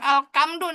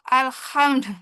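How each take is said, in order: First: The middle consonant is a harsh throaty kh. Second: The middle consonant is a soft breathy h. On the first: The speaker calls it wrong. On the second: The speaker calls it right.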